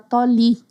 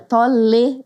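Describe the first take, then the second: First: The final vowel sounds like 'ee'. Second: The final vowel sounds like 'eh'. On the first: The speaker calls it wrong. "eu falei Casa Toli" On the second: The speaker calls it right. "é Tolê de, Toledo"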